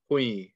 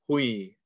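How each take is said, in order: First: The syllable runs into a y sound. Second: The same.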